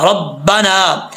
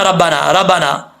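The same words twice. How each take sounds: First: Slow रब्बाना with a full ra; correct रब्बाना. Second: रब्बाना rushed with the ra rounded; wrong रब्बाना. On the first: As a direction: recite रब्बाना slowly and evenly. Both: Shown as a demonstration. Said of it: "ऐसे नहीं पढ़ना".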